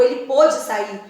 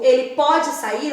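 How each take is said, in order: First: Pôde with a closed o, past tense: PÔ-de. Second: Pode with an open o, present tense: PÓ-de. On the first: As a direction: round the o of pôde. (pôde com o fechado, no passado) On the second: (pode com o aberto, no presente) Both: Shown as a demonstration. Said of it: "Eu digo".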